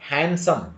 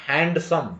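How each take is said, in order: No difference in how they are said.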